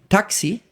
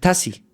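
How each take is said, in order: First: The x is said as a ks sound. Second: The x is said as an s sound.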